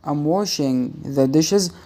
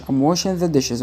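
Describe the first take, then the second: First: Slow, word by word; slow careful reading. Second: Quick, run together; fast reading. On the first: Teacher showing students slowly, careful dictation. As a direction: spell it out slowly for learners. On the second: Teacher showing how it sounds read fast, quick. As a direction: rattle it off like a native. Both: Shown as a demonstration. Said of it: "وأنت بتقرأ بسرعة".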